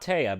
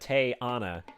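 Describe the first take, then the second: First: The name is said with two syllables. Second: The name is said with three syllables. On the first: The speaker calls it wrong. "Not Taya" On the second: The speaker calls it right. "but Tay-Ana"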